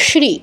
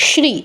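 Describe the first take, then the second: The two takes are said the same way.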